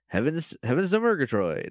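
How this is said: The voice is toned down but still expressive.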